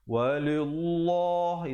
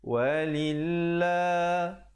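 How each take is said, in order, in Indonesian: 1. Bunyi L-nya tebal dan berat. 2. Bunyi L-nya nipis dan ringan. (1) "jangan pula kita baca tebal. Walillah, itu tak betul" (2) "Yang betulnya walillah, nipis"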